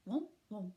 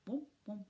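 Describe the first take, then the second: No difference in how they are said.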